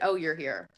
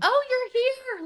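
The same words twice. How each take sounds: First: It sounds flat and let down. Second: It sounds glad and welcoming.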